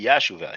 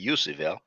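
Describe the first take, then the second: First: The second syllable sounds like 'sha'. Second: The second syllable sounds like 'su'. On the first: The speaker calls it right. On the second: The speaker calls it wrong.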